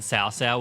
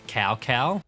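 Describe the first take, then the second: First: It is said the Chinese-style way. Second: It is said the familiar older English way. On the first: This is the newer pronunciation. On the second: This is how it used to be said.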